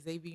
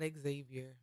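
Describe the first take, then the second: First: The name begins with a plain z sound. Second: The name begins with an ex sound. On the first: The speaker calls it right. "I'm glad you say Xavier University every time" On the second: The speaker calls it wrong. "if you don't say xylophone, it is not Xavier"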